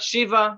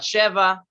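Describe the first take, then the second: First: An ee vowel separates the sh and v. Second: An eh vowel separates the sh and v. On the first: "Not shiva" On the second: "not sheva"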